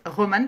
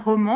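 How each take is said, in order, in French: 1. La terminaison est une voyelle simple suivie d'un n net. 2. La terminaison est une voyelle nasale, sans n plein. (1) "dans ma tête ça se prononce Roman parce que ça s'écrit R O M A N" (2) "ça ne se prononce pas roman"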